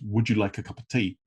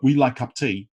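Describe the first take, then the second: First: Every word is said fully and separately. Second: The words are squeezed together with reduced sounds. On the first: The speaker calls it wrong. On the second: The speaker calls it right.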